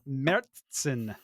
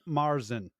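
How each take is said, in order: First: The first vowel sounds like 'eh'. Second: The first vowel sounds like 'ah'. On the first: The speaker calls it right. "the proper pronunciation is Mertzen" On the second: The speaker calls it wrong. "not Marzen"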